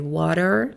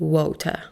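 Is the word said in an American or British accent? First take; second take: American; British. First: It is said with an American accent. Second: It is said with a British accent. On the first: "In American English we say" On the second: "In British English we say"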